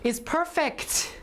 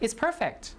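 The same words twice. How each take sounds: First: It is said slowly with an exaggerated final t. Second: It is said casually with an unreleased final t. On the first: "exaggerate it in careful pronunciation, in slow speech" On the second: "in normal conversation"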